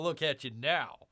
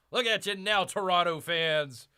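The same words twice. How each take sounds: First: Said in the usual way. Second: Louder, higher repeat to gloat; gloating taunt. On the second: Real, not acted. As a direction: rub it in their faces. Taunting rival hockey fans.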